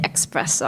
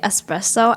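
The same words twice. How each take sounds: First: The word starts with an 'ex' sound. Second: The word starts with an 'es' sound. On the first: The speaker calls it wrong. "I accidentally say" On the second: The speaker calls it right. "whenever I say"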